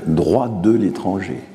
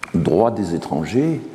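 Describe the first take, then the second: First: Appuyer sur de, dans de l'étranger, lentement; accent sur de l'étranger. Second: Appuyer sur des étrangers, au pluriel, lentement; accent sur des étrangers. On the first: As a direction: marquer de l'étranger comme la formule écartée. (de l'étranger, dit lentement, en contraste) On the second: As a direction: poser des étrangers comme la bonne formule. (des étrangers, dit lentement, en insistant) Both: Shown as a demonstration. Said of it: "et non pas".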